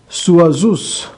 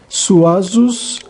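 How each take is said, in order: Both takes have the same delivery.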